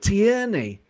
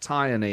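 First: The first syllable does not sound like 'tie'. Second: The first syllable sounds like the word 'tie'. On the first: "But Tierney" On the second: "I can understand someone saying tie, like as in a tie that you wear"

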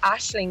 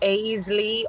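First: The name ends with an ng sound. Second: The name ends without an ng sound. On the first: The speaker calls it right. "no, it's Aisling" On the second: The speaker calls it wrong. "most people pronounce it thinking there's a H in it. So they're like Aisley"

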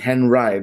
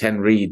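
First: The name is pronounced the German way. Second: The name is pronounced the anglicized English way. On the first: This is the original pronunciation. "It's how it should be" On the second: This is the version adapted for English speakers. "I think he said it's Henreid"

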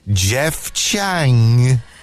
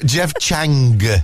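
First: The final G is not clearly pronounced. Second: The final G is pronounced as a hard G. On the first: The speaker calls it wrong. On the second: The speaker calls it right.

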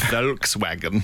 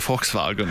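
First: It is said with an English pronunciation. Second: It is said with a German pronunciation. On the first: "instead of Volkswagen" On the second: "where we say Volkswagen"

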